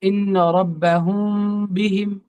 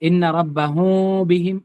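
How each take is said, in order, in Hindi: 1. नासिक्य m पर होंठ सिर्फ हल्के से छूते हैं। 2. m की आवाज़ में होंठ अलग रहते हैं। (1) "होंठ जरा सा सटता हटता रहे" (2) "होंठ नहीं सट रहे"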